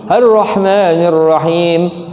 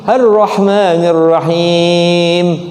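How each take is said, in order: First: The final long vowel is held for two beats. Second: The final long vowel is held for four beats. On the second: "Empat tuh"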